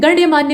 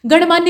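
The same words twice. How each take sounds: First: गण्यमान्य with ya after n; added ya. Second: गणमान्य with n straight into maanya; no ya inside गणमान्य; missing ya. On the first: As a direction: say गण्यमान्य as ganya-maanya. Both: Shown as a demonstration. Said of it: "गण्यमान्य होता है असल में".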